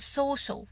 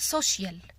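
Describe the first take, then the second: First: The ending is a single 'shul' without an 'ee'. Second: An extra 'ee' vowel is heard before the ending. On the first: The speaker calls it right. "بقول social" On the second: The speaker calls it wrong. "مش بقول social"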